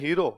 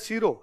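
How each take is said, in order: First: The word begins with an h sound. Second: The word begins with an s sound. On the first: "Jodhpur वाले बोलते हैं हीरो" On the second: "हलवा उसको बोलते हैं सीरो"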